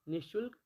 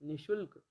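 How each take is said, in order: No difference in how they are said.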